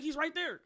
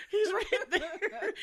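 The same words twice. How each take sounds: First: High-pitched mock exasperation; raised voice, playfully fed up; exasperated. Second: Loud, high, drawn-out disbelief through laughter; slow, laughing mock outcry; laughing exasperation. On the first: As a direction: point out the obvious, incredulous. Telling off clueless pursuers, first take. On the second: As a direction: stretch it out and crack up. Repeats it louder, laughing, drawn out.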